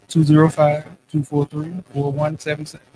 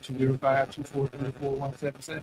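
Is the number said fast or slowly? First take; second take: slowly; fast. First: The number is said slowly. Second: The number is said quickly.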